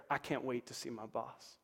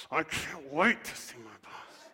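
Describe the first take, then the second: First: Said in the usual way. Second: Slow, dragged-out "I can't wait to see my boss" with stress on wait; reluctant, grudging. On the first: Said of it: "say it like this". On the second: Shown as a demonstration. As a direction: force the words out unwillingly. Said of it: "Some of you might have to say it like this".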